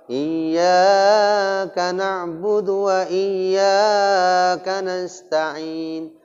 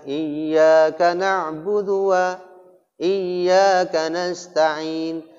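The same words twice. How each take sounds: First: The long vowels are stretched out excessively. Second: The long vowels are held only briefly. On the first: The speaker calls it wrong. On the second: The speaker calls it right.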